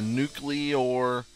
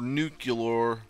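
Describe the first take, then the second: First: The word is said the non-American way. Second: The word is said the American way.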